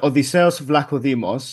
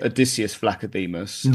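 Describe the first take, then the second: First: The name is pronounced the Greek way. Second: The name is pronounced the English way. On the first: "So it's uh" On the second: "in English, it'd be"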